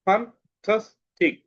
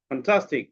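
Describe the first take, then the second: First: "fantastic" slow and higher, in three separate beats; split into syllables. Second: Said in the usual way. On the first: Shown as a demonstration. Teacher dividing a word for pupils, "fantastic" split slowly. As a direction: break "fantastic" apart with pauses. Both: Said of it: "সিলেবালের মাধ্যমে শব্দ ভাগ".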